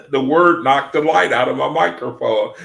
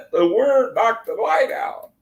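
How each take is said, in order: First: Louder, amazed telling; excited. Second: Higher, giggly, rising disbelief; laughing. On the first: Streamer telling viewers the word killed his mic, excited. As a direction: marvel out loud at it. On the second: Streamer repeating the mic story to viewers, laughing. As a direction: say it through the giggles. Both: Real, not acted.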